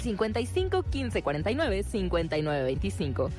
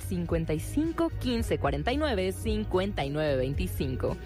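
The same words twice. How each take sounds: First: The number is read at a quicker pace. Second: The number is read at a slower pace.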